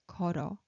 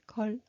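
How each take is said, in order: First: 걸어 run together as geo-reo, the l sliding onto 어; linked pronunciation. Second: 걸어 with a break, 걸 then 어 apart; separated pronunciation. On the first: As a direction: join 걸어 smoothly into one word. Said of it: "moves over to top". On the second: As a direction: say 걸어 as two separate chunks. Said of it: "instead of pronouncing". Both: Shown as a demonstration.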